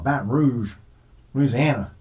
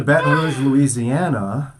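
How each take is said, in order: First: Said in the usual way. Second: "Baton Rouge" said the French way, slow "Louisiana"; hammed-up French "Baton Rouge"; French Louisiana accent. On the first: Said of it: "I probably said it wrong". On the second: Shown as a demonstration. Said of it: "did I say that? I probably said it wrong".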